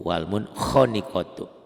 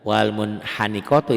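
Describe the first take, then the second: First: The vowel after kh sounds like an o. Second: The vowel after kh sounds like a clear a. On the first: The speaker calls it right. "ini ada o-nya nih. Tuh wal munkhaniqatu" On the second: The speaker calls it wrong. "Ini kan bukan wal munkhaniqatu"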